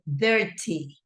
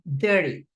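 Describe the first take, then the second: First: The middle T is a clear, emphasized T. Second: The middle T is soft, like a quick R. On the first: "in English, from U K, you pronounce it dirty" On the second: "en North American English ... la pronuncian como una R"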